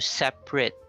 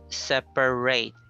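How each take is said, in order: First: The last syllable has a reduced schwa vowel. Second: The last syllable has a full 'ay' vowel. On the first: It is used as an adjective. "So it's pronounced as rut. It's a schwa sound" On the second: It is used as a verb. "So that's sounded as an a sound"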